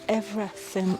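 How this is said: It is said with a British accent. "that's how British people say everything"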